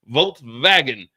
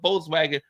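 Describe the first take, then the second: First: It is said the German way, with a V sound. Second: It is said the American way, with a W sound.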